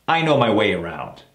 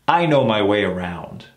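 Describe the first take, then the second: No difference in how they are said.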